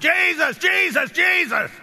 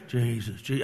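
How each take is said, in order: First: It is hollered loudly, with urgency. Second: It is said quietly, without urgency.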